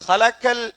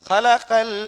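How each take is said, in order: Both takes have the same delivery.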